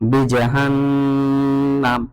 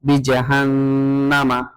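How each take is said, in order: First: The word ends on the consonant m. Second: The word ends with a final vowel. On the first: The speaker calls it right. "এখানে বিজাহান্নাম এভাবে পড়তে হবে" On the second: The speaker calls it wrong. "এভাবে বলতে পারবো না"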